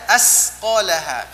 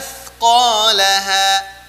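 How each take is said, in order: First: The consonant is a hissing 's' sound. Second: The consonant is a soft 'th' sound. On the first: The speaker calls it wrong. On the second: The speaker calls it right.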